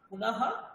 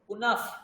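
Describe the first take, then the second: First: The final sound is a breathy h with echo vowel. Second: The final sound is a light f sound.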